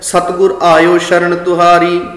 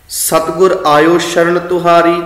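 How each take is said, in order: No difference in how they are said.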